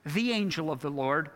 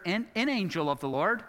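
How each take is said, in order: First: "the" stressed with a rise, a unique angel. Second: "an" stressed, rising, an indefinite angel. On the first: Preacher contrasting articles, leaning on "the". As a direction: lean on "the" as the one and only. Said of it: "not here, an angel". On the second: Preacher contrasting articles, leaning on "an". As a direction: lean on "an" as if any angel. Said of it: "but the angel of the Lord". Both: Shown as a demonstration.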